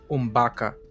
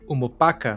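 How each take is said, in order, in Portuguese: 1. A palavra é reduzida, eliminando uma vogal. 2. A palavra completa é pronunciada com todas as vogais.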